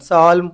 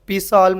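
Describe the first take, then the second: First: The word starts with an s sound, no p. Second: The word starts with a p sound before s. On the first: The speaker calls it right. "साल्म पढ़ते हैं" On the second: The speaker calls it wrong. "पी साल्म नहीं पढ़ते"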